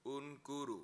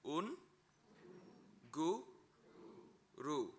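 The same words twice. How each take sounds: First: Unguru said smoothly as one word; whole word. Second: Un, gu, ru spoken one syllable at a time with pauses. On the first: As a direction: join Unguru into a single flowing word. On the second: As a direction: break un, gu, ru into slow separate syllables. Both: Shown as a demonstration.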